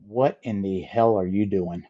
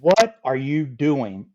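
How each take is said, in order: First: Lightly voiced stern boss, a hint of disbelief; mock stern demand. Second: Drawn out slowly, each word weighed; slow it right down, a dumbfounded repeat; slow stern repeat. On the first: Jack, seeing Scott wrapped in thongs, a hint of stern disbelief. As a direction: ask it like a man who can't believe his eyes. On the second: Retold or imitated. Jack repeating his question to Scott, slow and dumbfounded.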